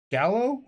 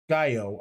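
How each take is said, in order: First: Gallo said GAL-oh, with an L; Italian-style pronunciation. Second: Gallo said GUY-oh, no L sound; Spanish-style pronunciation. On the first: Host offering first reading of the winery name, Gallo as GAL-oh. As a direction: say Gallo as GAL-oh, questioning rise. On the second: Host offering second reading of the winery name, Gallo as GUY-oh. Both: Shown as a demonstration. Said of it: "I don't know if it's of Spanish descent".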